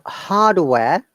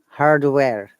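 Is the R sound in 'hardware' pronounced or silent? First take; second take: silent; pronounced. First: The R after the first vowel is silent. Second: The R after the first vowel is pronounced. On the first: "British English" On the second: "American English"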